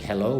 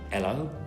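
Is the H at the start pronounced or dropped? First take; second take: pronounced; dropped. First: The word starts with a clear H sound. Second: The word starts without any H sound. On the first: "we don't say hello" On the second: "We also don't pronounce the H at the beginning of words"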